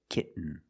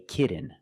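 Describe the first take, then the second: First: The T is stopped and linked into the N. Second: The T is a quick D-like flap. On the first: The speaker calls it right. "most people say kitten. You do the stop T" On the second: The speaker calls it wrong. "don't say kitten. I cannot pronounce these T's as a fast D"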